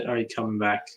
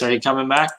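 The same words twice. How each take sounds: First: Said in the usual way. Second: Louder question with a rising end; calling out. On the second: Real, not acted. Host asks dropped-out Leroy to return, calling out. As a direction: call it out to someone who may hear.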